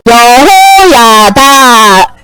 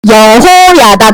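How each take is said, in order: First: 여호야다 hugely stretched, every vowel held; low, very slow 여호야다; choral recitation. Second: Low, slow 여호야다; slow model for repeating. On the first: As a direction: chant 여호야다 out long for all to join. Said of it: "시작". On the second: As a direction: draw out each syllable of 여호야다. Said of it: "다 같이 해보자". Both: Shown as a demonstration.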